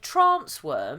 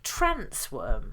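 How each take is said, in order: First: It is said with a London-style vowel. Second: It is said with a northern English vowel. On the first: "he would have said trance worm" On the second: "which is a more northern pronunciation"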